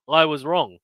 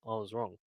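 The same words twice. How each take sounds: First: "I was wrong" said up and out, I stressed; cheerful admission; owning it. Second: "I was wrong" repeated much softer, falling on wrong; sheepish echo; quiet repeat. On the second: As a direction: murmur "I was wrong" to yourself. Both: Real, not acted. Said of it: "I hold my hands up".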